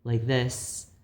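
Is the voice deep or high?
high. The voice is higher and more feminine. "I can speak in a higher voice, um, more like a woman"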